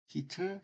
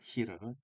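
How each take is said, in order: First: The middle t is a clear t sound. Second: The middle t is a quick r-like tap. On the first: "분명하게" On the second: "빨리 읽으면 니을 발음으로 발음이 돼. 르 발음으로"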